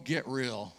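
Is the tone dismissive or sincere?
dismissive. It is said in a dismissive, negative tone. The idea is being brushed off as unrealistic. The speaker calls it wrong. "he'd just look at us and go"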